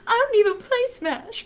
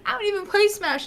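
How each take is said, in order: First: Much higher excited cry; quoting the clip's opening, high and excited; high exclaim. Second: Much higher wailed protest; repeated quote of own clip, high and emotional; high exclaim. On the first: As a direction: squeal it out, pitched way up. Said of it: "clip starts with me going". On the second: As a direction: pitch it up, half-crying. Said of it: "So I'm like". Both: Retold or imitated.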